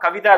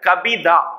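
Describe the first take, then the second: First: The middle consonant is a v sound. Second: The middle consonant is a b sound. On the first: The speaker calls it wrong. "கவிதா இல்ல" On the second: The speaker calls it right.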